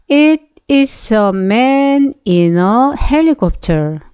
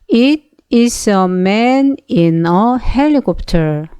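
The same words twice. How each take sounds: The two takes are said the same way.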